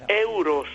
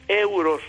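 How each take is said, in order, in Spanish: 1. La palabra empieza directamente por vocal. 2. La palabra empieza directamente por vocal.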